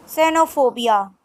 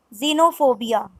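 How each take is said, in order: First: "Xenophobia" said Spanish-style as senofobia; Spanish pronunciation. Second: "xenophobia" said the English way, starting with z; English pronunciation. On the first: Teacher models the Spanish word, Spanish pronunciation. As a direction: start "Xenophobia" with an s. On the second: Teacher gives the English word, English pronunciation. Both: Shown as a demonstration. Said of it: "X is pronounced as".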